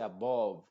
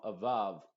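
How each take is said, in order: First: ABOVE with a rounded O, as a-BOHV; mispronounced. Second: ABOVE as uh-BUHV; same short 'uh' in both syllables of ABOVE; correct vowel. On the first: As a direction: say ABOVE wrongly with an O. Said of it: "esto no se dice above". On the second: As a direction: say ABOVE with unrounded lips. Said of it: "sino above". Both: Shown as a demonstration.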